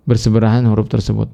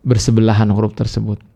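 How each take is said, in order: Both takes have the same delivery.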